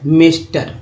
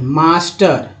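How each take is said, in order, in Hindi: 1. पहला स्वर 'eh' जैसा बोला जाता है। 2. पहला स्वर 'ah' जैसा बोला जाता है। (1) "ए का उच्चारण ए हो गया" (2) "अब सही पढ़ते हैं, मास्टर आ"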